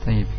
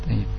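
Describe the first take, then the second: Both takes have the same delivery.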